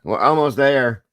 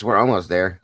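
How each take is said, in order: First: "almost there" pitched up high; playful emphatic repeat. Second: Said in the usual way. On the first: Pretend. Streamer cheering viewers toward more likes, high emphatic repeat. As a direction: lift "almost there" higher, drawing out "there".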